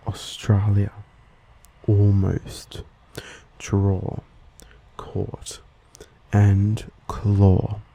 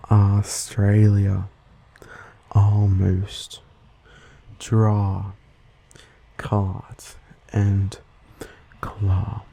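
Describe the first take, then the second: First: Australian rounded "aw" in "draw" and "claw"; Australian accent. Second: American open "ah" in "draw" and "claw"; slow American vowels, word by word; American accent. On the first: Host listing examples as an Australian, Australian accent. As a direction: say each word with the Australian O-like vowel. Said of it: "When spoken by an Australian". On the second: Host imitating someone from the US, American accent. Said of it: "Someone from the U S would say these words like". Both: Shown as a demonstration.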